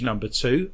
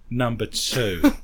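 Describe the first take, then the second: First: Said in the usual way. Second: "number two" drawn out slowly, rising on "number"; stress on number two. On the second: Shown as a demonstration. Joking to the co-host, slow rising stress on "number two". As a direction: lean on "number two" with a sly slow lift. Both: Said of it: "With the emphasis on the word".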